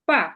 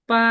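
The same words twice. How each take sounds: First: The pitch falls sharply downward. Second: The pitch stays high and level. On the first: "চার নম্বর tone" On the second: "এটা ফ্ল্যাট হয়ে যাবে"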